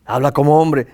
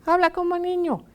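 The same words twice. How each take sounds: First: Loud, manly voice; man's voice. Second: Put-on very high little-kid voice; child's voice. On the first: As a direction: speak up firmly like a man. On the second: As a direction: pipe up like a small child. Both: Shown as a demonstration.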